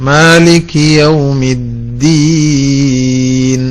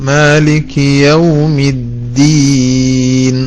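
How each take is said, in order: The two takes are said the same way.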